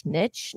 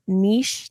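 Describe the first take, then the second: First: Niche slow, with a short i and tch; niche as "nitch". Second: Niche slow, with a long ee and soft sh; niche as "neesh". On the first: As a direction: say niche slowly, rhyming with rich. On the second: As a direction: say niche slowly, rhyming with leash. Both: Shown as a demonstration. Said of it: "is it niche or niche?".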